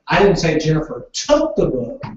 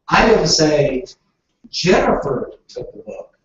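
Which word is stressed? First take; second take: took; Jennifer. First: The word took carries the stress. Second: The word Jennifer carries the stress. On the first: The book was borrowed, not taken. "Jennifer borrowed the book" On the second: A different person took the book. "I said Tom took the book"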